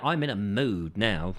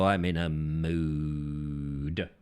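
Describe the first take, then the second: First: Said in the usual way. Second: Low, hugely drawn-out mock brooding; theatrical low groan of a line; hammed-up moodiness. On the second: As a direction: stretch it out deep and slow, wallowing in it. Repeats the mood line theatrically.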